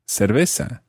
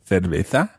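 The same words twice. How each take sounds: First: The first consonant sounds like s. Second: The first consonant sounds like th. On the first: "using the S pronunciation" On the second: "as it would be pronounced in Spain"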